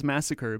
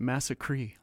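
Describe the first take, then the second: First: Said in the usual way. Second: MASSACRE with a final "cree"; odd song pronunciation. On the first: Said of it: "not as massacre". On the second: Shown as a demonstration. Host asks about the song's pronunciation, massacre ending in "-cree". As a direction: say massacre to rhyme with "tree". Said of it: "he pronounces it as, not as massacre but".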